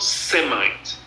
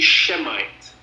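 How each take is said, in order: First: The word begins with an 's' sound. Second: The word begins with a 'sh' sound. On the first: It is a made-up word. The speaker calls it wrong. "not Semite. That's a made-up word" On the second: The name comes from the word Shem. The speaker calls it right. "the word should be Shemite"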